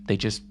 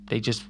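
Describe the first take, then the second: No difference in how they are said.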